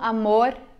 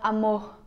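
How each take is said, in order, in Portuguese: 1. O R é pronunciado de forma não carioca. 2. O R é pronunciado de forma carioca. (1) "eles não falam amor igual a gente" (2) "Eles falam amor"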